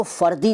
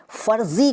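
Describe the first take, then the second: First: फ़र्दी with d replacing z. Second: Said in the usual way. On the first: Shown as a demonstration. Teacher showing what is not said, फ़र्दी with d for z. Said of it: "नहीं कहते". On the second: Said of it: "फ़र्दी नहीं कहते".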